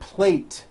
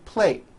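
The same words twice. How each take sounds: First: The final T sound is clearly released. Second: The final T sound is dropped. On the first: The speaker calls it right. "For the word plate" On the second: The speaker calls it wrong. "you may be saying plate. ... you don't hear the T sound"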